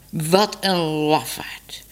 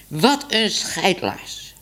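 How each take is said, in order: First: Slow scornful whisper; contemptuous whisper. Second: Said in the usual way. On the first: Acted. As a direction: breathe the insult out slowly. Cat scorns the cowardly man.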